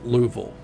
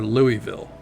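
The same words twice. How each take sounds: First: It uses the pronunciation local to the region. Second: It uses another pronunciation heard outside the region. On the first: The speaker is from the region. The speaker calls it right. "but it's Louisville" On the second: The speaker is not from the region. The speaker calls it wrong. "or Louisville"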